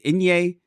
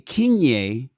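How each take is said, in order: First: The name begins with a vowel sound. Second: The name begins with a K sound. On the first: The speaker calls it right. "I think the K is silent" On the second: The speaker calls it wrong. "I want to say Kinye, but I don't think the K is pronounced"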